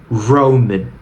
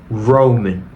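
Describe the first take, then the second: First: The r is made with the tongue pulled back. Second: The same.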